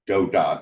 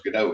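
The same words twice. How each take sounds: First: The word ends with a clear t sound. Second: The final t sound is dropped. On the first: "I've heard it pronounced that way. I like that pronunciation because um, that is kind of what a video game is, right? Just moving dots around" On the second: "I usually go with something, I guess, like French pronunciation. The T is dropped off the end"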